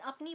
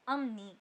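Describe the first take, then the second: First: The middle consonant is a p sound. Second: The middle consonant is an m sound. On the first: The speaker calls it wrong. "अपनी बोलने में sound break होता है" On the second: The speaker calls it right. "Sound को कंटिन्यूस बनाने के लिए वो बोला जाता है"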